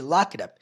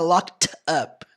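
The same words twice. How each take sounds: First: The words run together quickly into one unit. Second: The words are separate, with a clear final T. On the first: "ele fala rápido ... Fica literalmente locked up" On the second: "não fica locked up, não"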